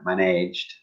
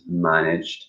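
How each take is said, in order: First: The stress is on the second syllable. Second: The stress is on the first syllable. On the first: The speaker calls it wrong. "I hear a lot of students say damaged or managed, which is not correct" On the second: The speaker calls it right. "The the stress is on the first syllable"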